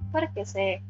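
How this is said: The question is said in a calm, gentle tone. The speaker calls it right. "Di naman. Parang por qué se. Ganun"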